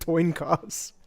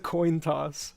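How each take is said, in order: First: The first sounds are swapped: toin cost. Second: The sounds are in normal order: coin toss. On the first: The speaker calls it wrong. "I said toin cost" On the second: The speaker calls it right. "It's a coin toss"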